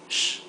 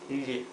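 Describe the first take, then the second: First: The sound is a hushing sh. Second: The sound is not a hushing sh. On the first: This is how it sounds in some countries. "In some Spanish-speaking countries like Argentina and Uruguay, the sound would be sh" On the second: This is how it sounds in most countries. "but for most other countries, it's ille"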